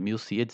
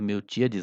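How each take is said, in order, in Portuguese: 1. Um som de s vem antes da vogal tônica. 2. Um som de t vem antes da vogal tônica. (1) "mas é Milcíades" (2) "talvez eu tenha dito Miltíades antes"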